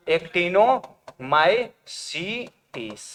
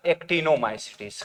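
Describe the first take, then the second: First: Actinomycetes very slowly, broken into separate parts; syllable-by-syllable dictation. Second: Said in the usual way. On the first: Shown as a demonstration. Teacher repeating actinomycetes for students, slowly syllable by syllable. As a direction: spell out actinomycetes by sound, pausing between chunks. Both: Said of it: "कौन बोला था?".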